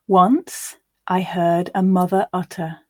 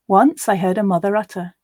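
First: The line is read quite slowly. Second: The line is read at a natural, faster pace. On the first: "The first time I'll read quite slowly" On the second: "We'll now read it at a more natural pace"

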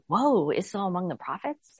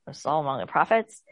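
First: It is said with amazed wonder. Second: It is said with a mocking scoff.

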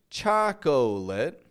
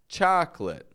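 First: The word has three syllables, with a middle vowel. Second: The word has two syllables, with no middle vowel. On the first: The speaker calls it wrong. "Notice I'm not saying chocolate. I'm not adding that extra O" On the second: The speaker calls it right. "I'm just saying chocolate"

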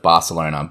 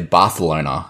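First: The name is said with a plain, ordinary pronunciation. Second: The name is said with a fancy, foreign-sounding pronunciation. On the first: The speaker is being unpretentious. "go the regular route" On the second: The speaker is showing off. "pretentious enough to say Barcelona"

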